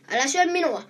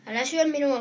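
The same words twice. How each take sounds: First: Higher, louder frightened shout; goat shouting. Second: A mild cry, only a little louder; small goat's cry. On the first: Bigger goat shouts at the troll not to eat him, loud shout. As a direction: yell it out to stop the troll. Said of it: "huusi isompi pukki". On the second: Little goat begs the troll not to eat him, mild cry. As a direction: plead with a slight raised voice. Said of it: "huusi pienin pukki". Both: A narrator's reading.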